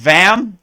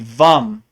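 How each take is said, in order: First: The vowel sounds like the a in cat. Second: The vowel sounds like the u in cup. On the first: The speaker calls it wrong. "It looks like vam" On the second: The speaker calls it right. "but it's really vum"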